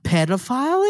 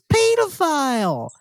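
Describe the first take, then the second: First: It is said with an American pronunciation. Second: It is said with a British pronunciation. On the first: "It's not pedophile" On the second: "It's pedophile"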